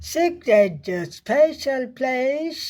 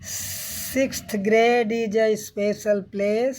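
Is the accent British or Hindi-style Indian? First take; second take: British; Indian. First: It is read with a British English accent. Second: It is read with a Hindi-style Indian accent.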